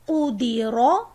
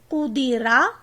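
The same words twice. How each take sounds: First: The r is said heavy and full. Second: The r is said light and thin. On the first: The speaker calls it right. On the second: The speaker calls it wrong.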